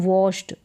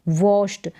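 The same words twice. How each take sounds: No difference in how they are said.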